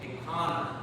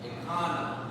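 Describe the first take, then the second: First: The h sound is faint and almost disappears. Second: The h sound is faint and almost disappears.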